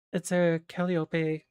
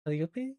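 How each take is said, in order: First: Said in the usual way. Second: "calliope" with a questioning rise; unsure pronunciation. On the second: Real, not acted. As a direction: lift the end of "calliope" as if checking how it is said. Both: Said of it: "I'm not sure if I pronounced it".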